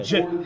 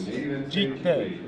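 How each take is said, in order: First: It is said with a short i vowel. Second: It is said with a long ee vowel. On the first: "which is would be the English"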